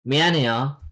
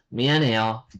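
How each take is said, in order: Both takes have the same delivery.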